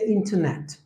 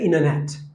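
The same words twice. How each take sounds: First: The T sound after the N is pronounced. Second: The T sound after the N is dropped. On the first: "we say internet" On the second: "they will say internet"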